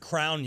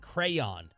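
First: The word is said as one syllable. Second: The word is said as two syllables. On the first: "One syllable" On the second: "two syllables"

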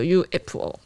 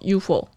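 First: Korean-style, with each letter said separately. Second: Japanese-style, with the letters run together.

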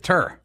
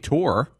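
First: The vowel is a short ur sound. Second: The vowel is a long oor sound. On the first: "He says Tur" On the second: "He doesn't say PGA Tour"

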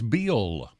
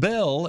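First: The vowel sounds like the i in bill. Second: The vowel sounds like the e in bell. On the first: The speaker calls it right. "it's Bill" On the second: The speaker calls it wrong. "It's not Bell"

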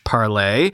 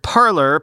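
First: It is said the French way, ending in 'lay'. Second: It is said like the English word 'parlor'. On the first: "intended to be pronounced as in French" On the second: "often pronounced as the English word parlor"

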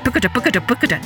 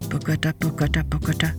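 First: It is said at a quick pace. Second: It is said at a slow pace.

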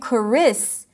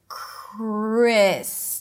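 First: An extra vowel sound is inserted between the k and the r. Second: The k and the r are joined with no vowel between them. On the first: The speaker calls it wrong. "Instead of saying Chris" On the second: The speaker calls it right. "try to connect the two sounds together"

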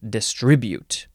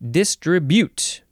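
First: The stress is on the second syllable. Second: The stress is on the first syllable. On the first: "here in America, where us Americans live, we like to emphasize only the second syllable" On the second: "the British say distribute. They emphasize the first syllable and then the last syllable less so"

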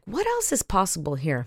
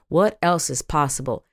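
First: It sounds genuinely curious and open. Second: It sounds resigned, like a sighing conclusion.

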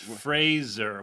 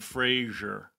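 First: The name rhymes with laser. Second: The name does not rhyme with laser. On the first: The speaker calls it right. "It's Fraser. ... like Laser" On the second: The speaker calls it wrong. "We've been saying it wrong"

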